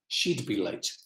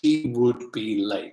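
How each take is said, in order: First: She would is contracted to one syllable. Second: She would is said in full as two words. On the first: The speaker calls it right. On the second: The speaker calls it wrong. "we don't say, ... It's too long and boring"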